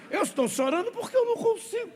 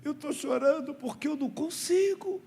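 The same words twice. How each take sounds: First: Put-on repeats the kid's line very high, quick, through laughter; can hardly get it out for giggling; laughing retelling. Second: Imitating a whiny little boy, pitched much higher; mock-tearful kid's plea; crying child. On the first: Pastor retells the crying boy's words to the church, laughing hard. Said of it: "Ele disse". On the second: Boy explains to the pastor why he is crying, in a high mock-whiny voice. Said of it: "por que você está chorando?".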